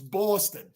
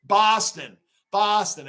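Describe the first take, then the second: First: "Boston" as "Bawston", New York style; New York accent. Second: "Boston" as "Bahston", Boston style; Boston accent. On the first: Shown as a demonstration. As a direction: round the first vowel of "Boston" to a New York "aw". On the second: Retold or imitated. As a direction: imitate a Bostonian, open "ah" in "Boston". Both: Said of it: "New York accents and Boston accent".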